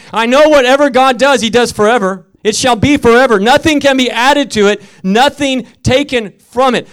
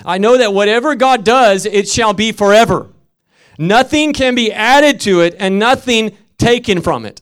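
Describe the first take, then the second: First: Louder, higher repeat of the verse; scripture proclaimed. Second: Loud, high scripture reading; scripture read aloud. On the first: Preacher repeating the verse to the congregation, louder. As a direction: proclaim it even harder the second time. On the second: Preacher reading Ecclesiastes to the congregation, loud. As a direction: read the verse out to the church. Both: Shown as a demonstration. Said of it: "I just want to say that again".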